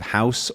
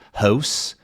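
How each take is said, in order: First: The vowel is plain and unraised. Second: The vowel is raised, Canadian-style.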